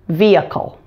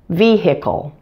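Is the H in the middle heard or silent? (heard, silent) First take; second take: silent; heard. First: The H in the middle is silent. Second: The H in the middle is heard. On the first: "The most common pronunciation is with a silent H" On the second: "some Americans pronounce the H in the middle of the word too"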